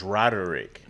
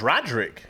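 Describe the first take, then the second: First: "Roderick" as ROD-er-ick; three-syllable pronunciation. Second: "Roderick" squeezed into ROD-rick; two-syllable pronunciation. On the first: Host insisting on the spelled form, "Roderick" as ROD-er-ick. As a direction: sound the middle "er" in "Roderick". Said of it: "It's Roderick". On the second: Host giving the name as first understood, "Roderick" as ROD-rick. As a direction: drop the middle vowel of "Roderick": ROD-rick. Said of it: "I thought it was Roderick". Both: Shown as a demonstration.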